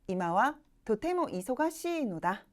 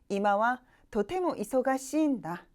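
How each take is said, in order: First: The particle is said in full as no. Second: The particle is shortened to a single n sound. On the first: It is the full standard form. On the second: It is the casual spoken form.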